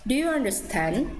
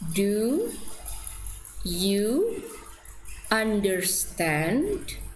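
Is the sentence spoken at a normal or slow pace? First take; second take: normal; slow. First: The sentence is spoken at a normal pace. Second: The sentence is spoken slowly, word by word.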